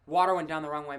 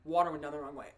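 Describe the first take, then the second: First: Said in the usual way. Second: Throat still choked from water; hoarse, recovering from choking; strained after coughing. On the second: Real, not acted.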